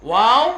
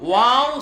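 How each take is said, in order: Both takes have the same delivery.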